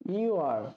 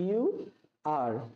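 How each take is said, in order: First: The words are joined into one short syllable. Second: Both words are said fully and separately. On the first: "এর contraction হয়ে যাবে" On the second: "তোমরা হও এর ইংরেজি হবে you are"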